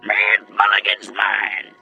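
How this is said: It is said imitating Sheriff Eagle's voice.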